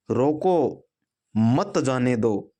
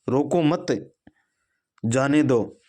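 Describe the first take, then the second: First: रोको alone, a beat, then मत जाने दो; pause after रोको. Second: रोको मत together, then a clear break before जाने दो; pause after मत. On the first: Teacher shows punctuation changing the meaning, pausing after रोको. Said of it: "ये दो वाक्य हैं, इसका अर्थ सिर्फ और सिर्फ विराम चिन्हों से बदला है". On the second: Teacher shows the comma flipping the meaning, pausing after मत. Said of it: "अल्प विराम की वजह से अर्थ बदल गया". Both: Shown as a demonstration.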